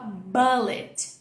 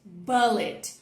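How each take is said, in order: Both takes have the same delivery.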